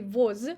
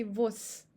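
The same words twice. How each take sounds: First: Voz ending in a voiced z; voz said wrongly voiced. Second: Vos ending in s; voz said vos; voz with voiceless s; devoiced z. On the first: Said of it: "We don't say". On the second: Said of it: "we say". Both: Shown as a demonstration.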